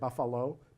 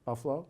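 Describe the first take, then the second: First: The middle vowel is clearly pronounced. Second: The middle vowel is dropped. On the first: An outsider is saying it. "you can tell when a foreigner's saying it" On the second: A local is saying it. "if you're from Buffalo, you never put the A in"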